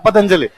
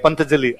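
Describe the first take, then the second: First: The n sound comes in the second syllable. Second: The n sound comes in the first syllable. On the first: This is the standard form of the name. The speaker calls it right. "ये क्या है पतंजलि" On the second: This is how people from one local region say it. The speaker calls it wrong. "सारे बोलते हैं पंतजलि"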